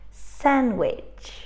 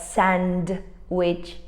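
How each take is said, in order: First: The D sound is left out. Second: The D sound is clearly pronounced. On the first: The speaker calls it right. "We write the D, but we don't pronounce it" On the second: The speaker calls it wrong. "We don't say really"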